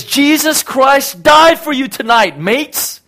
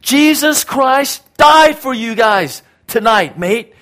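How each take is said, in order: First: High, loud shouted proclamation; drawn-out shout to drunk partygoers; retold scream. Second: High, loud, slow shout; slow shouted proclamation; retold scream. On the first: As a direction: yell it from a truck bed to the crowd. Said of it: "he just screams from the top of his lungs". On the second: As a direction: bellow it over the drunken street. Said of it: "And he screams out".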